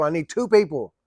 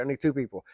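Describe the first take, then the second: First: Louder, fed-up repeat; fed up with the kid, louder; exasperated. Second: Said in the usual way. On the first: Retold or imitated. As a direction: hit it again, running out of patience.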